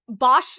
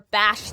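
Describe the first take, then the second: First: The vowel sounds like the one in 'ball'. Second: The vowel sounds like the one in 'fast'. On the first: "like ball" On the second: "like fast"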